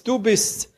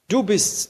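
First: Higher still, jubilant; rising joy. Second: A touch of joy, higher; first gasp of recognition, lightly; joyful disbelief. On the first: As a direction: let the joy spill over, much higher. (jubelnd, deutlich höher) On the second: (leicht freudig, höher) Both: A narrator's reading. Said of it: "fast erstickt vom Jubel".

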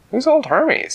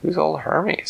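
First: A higher, squeakier character voice; same question pitched way up; much higher voice. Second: Said in the usual way. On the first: A narrator's reading. Second character repeats question.

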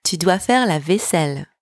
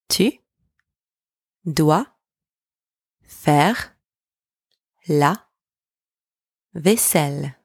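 First: Said in the usual way. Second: Isolated words, lifting until the last one falls; slow dictation, one word at a time. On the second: Shown as a demonstration. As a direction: split it up with long gaps for learners to echo. Word-by-word breakdown for repetition.

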